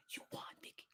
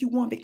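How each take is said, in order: First: Breathy whispered defeat, soft and low; imitated whisper. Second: Said in the usual way. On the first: Inmate conceding to Vicky, whispering. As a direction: whisper the surrender. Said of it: "she whispered it". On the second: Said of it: "She said".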